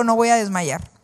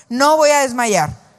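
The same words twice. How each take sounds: First: Said in the usual way. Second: Louder and slower declaration. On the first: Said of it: "Di conmigo". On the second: Shown as a demonstration. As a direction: say it stronger for everyone to repeat. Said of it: "dilo más fuerte". (dilo más fuerte, con firmeza)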